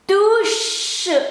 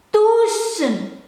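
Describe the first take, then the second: First: The final n sound is left out. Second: The final n sound is clearly said. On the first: "N-nya nggak disebutin" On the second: "Kalau disebutin tusen"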